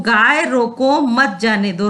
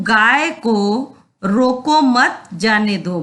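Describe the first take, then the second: First: "गाय रोको", short break, then "मत जाने दो" together; pause after रोको. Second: "गाय को रोको मत", brief pause, then "जाने दो"; slow reading, keeping मत joined to रोको before the break; pause after मत. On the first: Teacher moving the comma for students, pausing after रोको. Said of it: "रोको के बाद कॉमा लगा दिया". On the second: Teacher showing students the comma, pausing after मत. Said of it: "मत के बाद कॉमा लगा है". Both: Shown as a demonstration.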